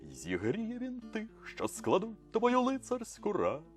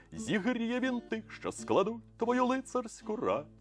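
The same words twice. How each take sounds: The two takes are said the same way.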